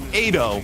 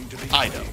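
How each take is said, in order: First: The first vowel sounds like the vowel in 'aid'. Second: The first vowel differs from the vowel in 'aid'. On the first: The speaker calls it wrong. "not Ado" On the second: The speaker calls it right.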